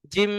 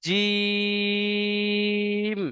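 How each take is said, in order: First: জিম said short with a humming nasal ghunna; জিম clipped and nasalized, the wrong way; wrong nasal jim. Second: জিম stretched long and even, no nasal hum; correct drawn jim. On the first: Teacher shows the students a mistaken জিম. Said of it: "এটা কিন্তু সঠিক উচ্চারণ নয়". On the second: Teacher models the right elongated জিম. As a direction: hold জিম for three counts, clear and open. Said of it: "আমি টান দিচ্ছি জিমকে". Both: Shown as a demonstration.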